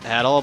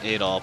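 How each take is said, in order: First: The stress is on the second syllable. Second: The stress is on the first syllable. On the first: The speaker calls it right. "I think it's pronounced Adol" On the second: The speaker calls it wrong. "putting the emphasis on the A"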